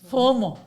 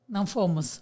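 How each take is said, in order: First: The first vowel sounds like u, no final s. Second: The first vowel sounds like o, with final s. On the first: The speaker calls it wrong. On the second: The speaker calls it right.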